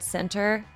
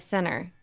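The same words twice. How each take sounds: First: The word is pronounced carefully and in full. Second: The word is pronounced in a casual, reduced way. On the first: The speaker calls it right. "when I intentionally think about the word center, I'll say it correctly" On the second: The speaker calls it wrong. "But if not, I'll say center"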